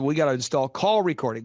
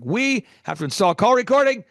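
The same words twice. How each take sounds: First: Said in the usual way. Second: Higher and louder, pressing down on "recording"; firm emphatic repeat, punch "recording"; emphatic insistence. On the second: Shown as a demonstration. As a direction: hammer the point home the second time.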